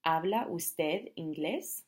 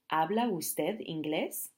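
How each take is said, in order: First: ¿Habla usted inglés? slower still, rising; slow formal question. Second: ¿Habla usted inglés? slow with rising end; slow formal question. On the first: Teacher repeats the formal question, slow. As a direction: repeat it for learners. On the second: Teacher models asking a stranger, slow and rising. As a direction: ask a stranger politely, slowly. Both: Shown as a demonstration. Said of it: "So you're gonna say".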